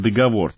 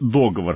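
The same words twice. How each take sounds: First: The stress is on the last syllable. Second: The stress is on the first syllable. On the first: "хотя по-прежнему можно говорить и" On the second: "Нормой теперь становится ударение на первый слог"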